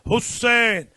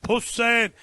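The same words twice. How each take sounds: No difference in how they are said.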